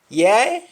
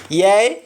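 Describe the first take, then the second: The two takes are said the same way.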